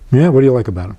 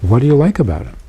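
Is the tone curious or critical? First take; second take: critical; curious. First: It sounds critical and dismissive. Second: It sounds open and genuinely curious.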